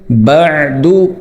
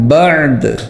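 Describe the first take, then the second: First: The final d is followed by a short u vowel. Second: The final d is stopped with an echoing bounce.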